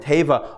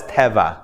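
First: "Teva" said TAY-vah, long first vowel; long-ay pronunciation. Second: "Teva" said TEH-vah, short open e; short-e pronunciation. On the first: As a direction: say "Teva" with ay as in day. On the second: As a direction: say "Teva" with e as in bed. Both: Shown as a demonstration. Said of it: "this is a different word".

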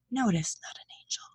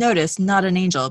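First: Soft unvoiced whisper; whispered aside. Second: Said in the usual way. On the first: Real, not acted. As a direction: drop to a whisper. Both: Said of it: "sound-wise, that's not gonna pick up".

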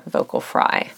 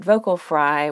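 First: Vocal fry with "vocal" and "fry" both crackling in a creaky low register. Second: Said in the usual way. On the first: Shown as a demonstration. Host demonstrating vocal fry to listeners, "vocal fry" creaky throughout. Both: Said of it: "an example that I demonstrated there for you intentionally".

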